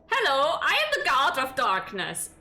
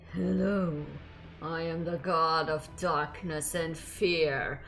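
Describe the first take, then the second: First: It is said in a plain, ordinary voice. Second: It is said in a deep, menacing voice.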